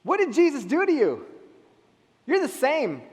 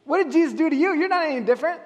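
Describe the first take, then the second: First: Skeptical challenge. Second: Mocking challenge. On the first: Retold or imitated. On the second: Skeptics challenge the believer again.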